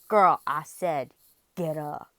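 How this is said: It is said in a serious tone.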